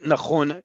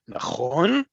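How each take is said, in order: First: It stays flat at the end. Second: It rises at the end like a question.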